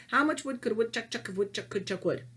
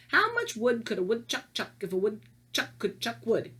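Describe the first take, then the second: First: Quick, fluent tongue twister; practised recital. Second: Careful reading. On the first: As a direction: reel it off from memory in one run. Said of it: "what I used to say is". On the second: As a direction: pick through it word by word. Careful first reading of rhyme. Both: Shown as a demonstration.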